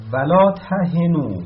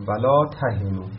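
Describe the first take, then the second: First: ولا تهنو recited slowly and loudly, higher; recited verse. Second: Said in the usual way. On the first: Shown as a demonstration. Teacher reciting the verse slowly and loudly to the class. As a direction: intone ولا تهنو like Quran recitation, drawn out.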